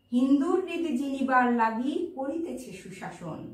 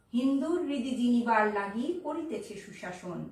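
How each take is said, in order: Both takes have the same delivery.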